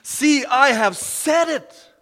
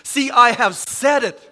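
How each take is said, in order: First: Higher, slow and louder, stretching each word; soaring repeat. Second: Louder, ringing declaration of God's words; emphatic proclamation. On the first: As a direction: lift it up to the rafters on the repeat. Repeat builds higher and slower. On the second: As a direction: announce it like a prophet. Quoting God's prophecy, repeated. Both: Acted.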